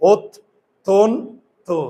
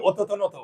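First: "ওত, তন, তো" cut into three paused syllables; stopping at each hasanta. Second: "অততনত" with a vowel on every consonant; pronunciation without hasanta. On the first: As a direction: halt after "ওত" and after "তন". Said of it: "থামবে". ("ওত, তন, তো" হসন্তে থেমে থেমে) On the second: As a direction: run "অততনত" on without stops. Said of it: "হসন্ত না দিলে হবে". ("অততনত" হসন্ত বাদ দিয়ে উচ্চারণ) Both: Shown as a demonstration.

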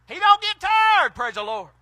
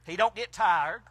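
First: Preaching shout. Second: Said in the usual way. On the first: Real, not acted. Preacher driving the point home to the church, hollering. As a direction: lift it up and holler it the second time. Repeats line, then builds.

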